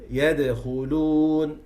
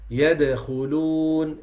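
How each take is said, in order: The two takes are said the same way.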